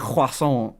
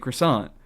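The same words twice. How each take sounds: First: It is said in a put-on foreign accent. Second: It is said plainly in the speaker's own accent. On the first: The speaker calls it wrong. "I'm not gonna say croissant or whatever the however the fuck you pronounce it" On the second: The speaker calls it right. "I'm gonna say croissant"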